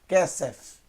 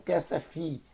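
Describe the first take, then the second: First: The word ends cleanly on the f sound. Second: The word ends with an added ee vowel. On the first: The speaker calls it right. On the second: The speaker calls it wrong. "não kesefi"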